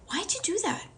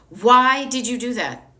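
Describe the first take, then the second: First: It is said in a warm, loving tone. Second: It is said in a frustrated, angry tone. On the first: The question opens the listener up. The speaker calls it right. "Love opens them up" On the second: The question shuts the listener down. The speaker calls it wrong. "Frustration, anger shuts people down"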